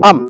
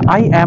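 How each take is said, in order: First: It is contracted into one short syllable. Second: It is said in full as two syllables. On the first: The speaker calls it right. "এটা হয়ে যাবে আম" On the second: The speaker calls it wrong. "এটা এইভাবে বলবো না"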